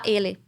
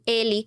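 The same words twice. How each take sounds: First: The final vowel is full and clear. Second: The final vowel is reduced and weak. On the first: This is how a foreigner says it. "um estrangeiro vai falar ele" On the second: This is how natives say it. "redução vocálica, então a gente fala assim, ele"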